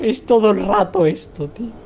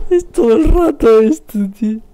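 First: Said in the usual way. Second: Loud, high mock-crying whine; wailing complaint. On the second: Streamer complaining it happens all the time, loud high wail. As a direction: wail it as if in tears.

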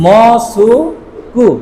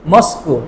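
First: মসুকু stretched very slowly, each mora separate; Japanese reading. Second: Said in the usual way. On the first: Shown as a demonstration. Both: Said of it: "মসজিদকে কি বলা হয়".

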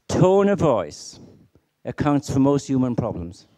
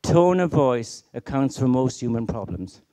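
First: "Tone of voice" said slowly and weightily, "Tone" hit hardest; slow emphatic statement. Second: Said in the usual way. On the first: Shown as a demonstration. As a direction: lean on "Tone of voice" slowly, then finish it firmly. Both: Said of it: "Let me say that again to you now".

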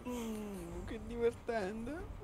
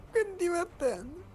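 First: Softer, slow deadpan sarcasm; sarcastic. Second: Higher, slow, through laughter; laughing. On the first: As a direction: drag it out, dripping sarcasm. Sarcastic reaction during game. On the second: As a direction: say it while cracking up. Repeats it laughing. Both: Real, not acted.

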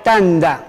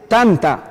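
First: "tanda" with a voiced D after the N; T sounded as D. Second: "tanta" with a crisp T after the N; literal reading. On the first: Teacher showing how it must be pronounced, T as D. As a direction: soften the written T into D in "tanda". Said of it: "suena D". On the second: Teacher reading the written word literally, T kept. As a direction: read "tanta" as spelt, with T. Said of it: "literalmente dice". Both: Shown as a demonstration.

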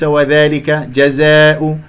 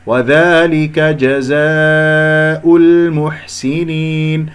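First: وذلك جزاء with "aa" thinned toward "eh"; faulty alifs. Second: Slow chanted وذلك جزاء المحسنين with open alifs; sung, correct recitation. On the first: Teacher shows students the error, وذلك جزاء with thinned alifs. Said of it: "هذه ألفات غير صحيحة". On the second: Teacher models the right way, chanted وذلك جزاء with full alifs. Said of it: "هكذا بارك الله فيكم". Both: Shown as a demonstration.

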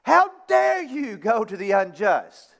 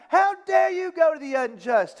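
First: Said in the usual way. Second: Raised, indignant rebuke; apostle's closing indignant challenge; angry rebuke. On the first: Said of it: "I'll put it in common vernacular". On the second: Retold or imitated. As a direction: demand it with exasperation. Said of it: "He's angry".

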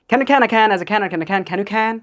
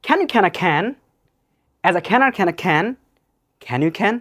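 First: Tongue twister run together without pauses; sped up. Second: Tongue twister phrase by phrase; slow practice take. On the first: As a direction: combine it all in one quick go. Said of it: "now speed up and combine together". (একটানা দ্রুত tongue twister) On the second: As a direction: pause after each question for the learner. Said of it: "Start slowly". (ধীরে, থেমে থেমে tongue twister) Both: Shown as a demonstration.

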